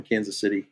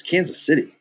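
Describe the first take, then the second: First: Said in the usual way. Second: Imitating a judgmental director, higher pitch; judgmental echo. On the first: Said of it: "I said where I was from". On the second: Director questioning actor's hometown, judgmental. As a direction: echo it back as a disapproving question. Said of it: "judgmental about it".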